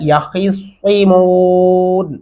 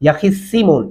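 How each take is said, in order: First: The s is a heavy, emphatic s sound. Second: The s is a plain, light s sound. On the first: The speaker calls it right. "کیا پڑھنا ہے؟" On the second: The speaker calls it wrong. "وہ کیسے پڑھتے ہیں بنا تلفظ کے"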